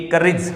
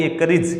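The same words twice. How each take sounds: First: करेज said as kərɪdʒ, with a short ɪ in the second syllable; correct pronunciation. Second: करेज as kərɪdʒ, short ɪ, stress on the first syllable; right pronunciation. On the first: Teacher giving the right way to say courage, kərɪdʒ. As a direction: say करेज as kə-rɪdʒ. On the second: Teacher correcting the class on courage, kərɪdʒ. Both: Shown as a demonstration. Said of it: "करेज नहीं, ये करेज".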